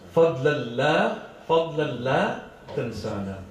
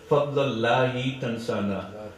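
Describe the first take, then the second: First: The opening is said as separate words 'fa la'. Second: The opening runs together to sound like 'fadl Allahi'. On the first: It asks not to be forgotten. The speaker calls it right. "So we should actually read this line properly" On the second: It sounds like the grace of Allah. The speaker calls it wrong. "You shouldn't say Fadla Allahi Tansana"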